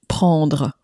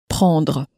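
The two takes are said the same way.

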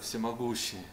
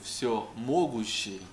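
First: The word is said plainly, without extra emphasis. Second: The first part 'все' is strongly emphasized. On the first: God sounds great and far away. The speaker calls it wrong. "Не просто сказать «всемогущий»" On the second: God can do everything. The speaker calls it right. "в этом слове нужно правильно поставить ударение"

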